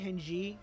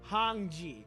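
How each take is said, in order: First: The first vowel is a flat 'eh' sound. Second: The first vowel is a rounded 'oh' sound. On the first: The speaker calls it wrong. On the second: The speaker calls it right.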